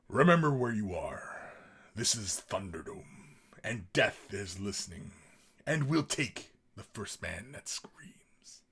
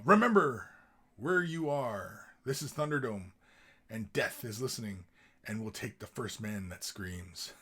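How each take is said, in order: First: It is read in a dark, ominous way. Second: It is read in a plain, casual way.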